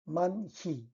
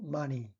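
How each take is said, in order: First: A breathy h sound is kept in the middle. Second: The h sound dissolves, leaving plain mani. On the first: The speaker calls it wrong. "Number one" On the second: The speaker calls it right. "The answer is number two"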